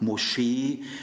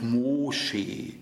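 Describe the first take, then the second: First: The stress is on the second syllable. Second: The stress is on the first syllable. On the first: The speaker calls it right. "werden alle auf der zweiten Silbe betont" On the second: The speaker calls it wrong. "Ihr sagt ja auch nicht Moschee"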